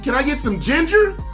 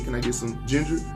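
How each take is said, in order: First: It is said loudly, at a raised volume. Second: It is said quietly, at a soft volume. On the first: The request demands attention. "I had to use my outside voice" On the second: The request is easy to miss. "I was using my inside voice"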